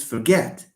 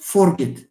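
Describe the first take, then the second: First: "forget" stressed on GET; weak first syllable, strong GET in "forget"; corrected for-GET for "forget"; stress on second syllable. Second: "forget" stressed on FOR; stress on first syllable. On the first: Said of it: "it's forget". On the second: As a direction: punch FOR, weak end to "forget". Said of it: "it's not forget". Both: Shown as a demonstration.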